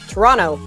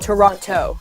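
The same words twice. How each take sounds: First: It is pronounced the way local residents say it. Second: It is pronounced the way outsiders say it. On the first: The speaker calls it right. "Torontonians don't pronounce it that way. It's Toronto" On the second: The speaker calls it wrong.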